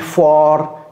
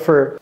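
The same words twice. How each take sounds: First: The word is said with a full vowel. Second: The word is said with a reduced vowel. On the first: The speaker calls it wrong. "si vous dites for, non" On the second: The speaker calls it right. "l'américain va dire for"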